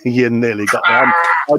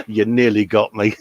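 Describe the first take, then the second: First: Laughing through the words You nearly got me. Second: Said in the usual way. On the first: Real, not acted. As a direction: chuckle as you say it, still amused. Laughing after the joke.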